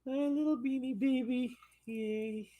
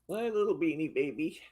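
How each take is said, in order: First: High doting coo. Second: Said in the usual way. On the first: Real, not acted. Owner cooing high at her little dog.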